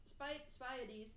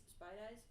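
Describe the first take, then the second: First: "Spiedies" as SPY-deez, slowly; slow, halting "Spiedies", SPY-deez; trying pronunciations. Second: "Spiedies" as SPY-dize, questioning; softer, doubtful "Spiedies" with rhyme on eyes; unsure pronunciation. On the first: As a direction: sound out "Spiedies" with a long I and a dee ending. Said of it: "I'm gonna call 'em Spideys". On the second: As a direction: try "Spiedies" ending like dyes, rising softly. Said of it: "I don't know". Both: Shown as a demonstration.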